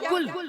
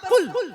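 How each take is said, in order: First: It starts with a plain front 'k' sound. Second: It starts with a deep back 'q' sound. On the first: It means 'eat'. The speaker calls it wrong. "बड़ी काफ की जगह पर छोटी वाली काफ पढ़ दे" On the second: It means 'say'. The speaker calls it right. "बड़ी काफ"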